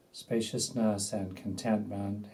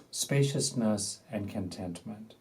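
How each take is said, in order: Both takes have the same delivery.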